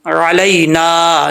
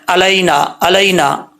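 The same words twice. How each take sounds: First: Slow अलैना with throaty ain and long ना; correct ain. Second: Quick अलैना starting on a plain a; missing ain. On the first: Shown as a demonstration. Teacher corrects hamza mistake, careful tajweed. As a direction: open अलैना from the throat, hold the end. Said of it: "आइन को हमज़ा पढ़ जाते हैं". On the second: Retold or imitated. Teacher mimics people's mistake, mispronounced अलैना. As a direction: say अलैना with hamza instead of throaty ain. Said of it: "आइन का फ़र्क ही नहीं करते".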